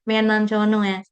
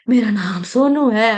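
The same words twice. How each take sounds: First: It is said in a small childlike voice. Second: It is said in a weak, shaky, strained voice. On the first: The speaker is a baby. "पहले baby वाली voice थी" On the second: The speaker has become old. "बोला भी नहीं जा रहा है गले से बुढ़ापे की वजह से"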